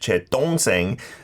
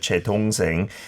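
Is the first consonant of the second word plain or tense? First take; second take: tense; plain. First: The second word starts with a tense consonant. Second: The second word starts with a plain consonant. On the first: It sounds like a word for poop. The speaker calls it wrong. "instead pronounced as my poop" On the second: It means my younger sibling. The speaker calls it right. "my brother or my sister"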